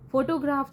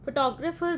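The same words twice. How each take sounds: First: photograph stressed on its first syllable, the ਫੋ. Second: photographer stressed on its second syllable, the ਟੋ. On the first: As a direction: lead with a strong ਫੋ in photograph, full o vowel. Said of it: "first ਤੇ ਆਏਗਾ". (Photograph ਦੇ ਪਹਿਲੇ syllable 'ਫੋ' ਤੇ ਜ਼ੋਰ) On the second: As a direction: put the weight on the ਟੋ in photographer, first syllable reduced. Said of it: "second ਵਾਲੇ ਤੇ ਆਏਗਾ". (ਫੋਟੋਗ੍ਰਾਫਰ ਦੇ ਦੂਜੇ ਸਿਲੇਬਲ 'ਟੋ' ਤੇ ਜ਼ੋਰ) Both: Shown as a demonstration.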